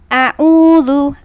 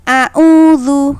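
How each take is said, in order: No difference in how they are said.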